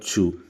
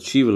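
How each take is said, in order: First: The word ends with a plain vowel. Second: The word ends with a v sound. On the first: The speaker calls it right. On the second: The speaker calls it wrong.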